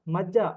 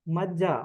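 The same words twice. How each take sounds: The two takes are said the same way.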